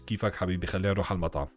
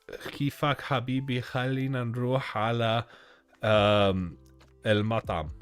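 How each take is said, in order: First: It is spoken with a native Arabic accent. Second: It is spoken with an English accent. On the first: "When in Arabic it's" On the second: "that is an English accent of Arabic speaking"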